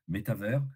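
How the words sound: It is said with a fully French pronunciation. The speaker wants to sound thoroughly French. "Si tu veux être franco-français, tu dis"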